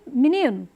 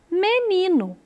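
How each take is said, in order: First: It is said with a European Portuguese accent. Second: It is said with a Brazilian Portuguese accent. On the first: "lá eles dizem" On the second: "aqui nós dizemos"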